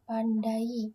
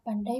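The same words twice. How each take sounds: First: The 'a' and 'i' form two separate syllables. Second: The 'ai' glides together in one syllable. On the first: The speaker calls it wrong. "bukan pandai" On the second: The speaker calls it right. "dibaca pandai ... dai-nya itu termuat dalam satu suku kata"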